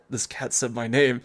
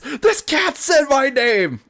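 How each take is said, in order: First: It is said quietly and calmly. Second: It is yelled loudly and frantically. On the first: "that wasn't like a quiet" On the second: "Like an absolute insane person would say"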